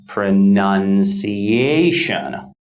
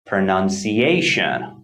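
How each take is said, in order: First: Pronunciation said slowly, syllable by syllable, main stress on ci. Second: Pronunciation at normal pace, main stress on ci. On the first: Teacher slows the word down for learners, stress on ci. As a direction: slowly stretch pronunciation, leaning on ci. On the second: Teacher repeats the word at normal speed, stress on ci. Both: Shown as a demonstration. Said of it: "primary stress falls on the fourth syllable".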